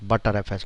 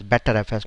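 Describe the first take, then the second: First: The first part sounds like the word 'butter'. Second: The first part sounds like the word 'better'. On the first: "not butter F S now" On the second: "that's why we call calling it as better F S"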